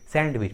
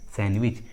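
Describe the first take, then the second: First: The d sound is pronounced. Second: The d sound is silent. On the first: The speaker calls it wrong. "बहुत सारे लोग इस English word को pronounce करते हैं सैंडविच, सैंडविच which is incorrect" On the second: The speaker calls it right. "इसका सही उच्चारण होता है सैंडविच"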